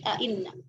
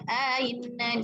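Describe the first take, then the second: First: Second glottal stop fully clear, no vowel inserted. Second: Second glottal stop eased, long vowel inserted before. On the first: "tahqiq hamzah kedua tanpa idghal" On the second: "tafsir hamzah kedua dengan idghal"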